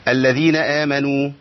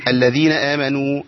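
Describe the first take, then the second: No difference in how they are said.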